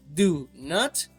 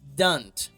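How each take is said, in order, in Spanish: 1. Se dice como dos palabras separadas y completas. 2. Se dice como una sola sílaba contraída. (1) "en lugar de decir do not" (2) "vamos a decir don't"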